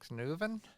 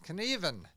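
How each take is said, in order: First: The name is said with a 'u' vowel sound. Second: The name is said without a 'u' vowel sound. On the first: The speaker calls it wrong. "I I just mispronounced his name" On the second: The speaker calls it right. "you don't pronounce the U"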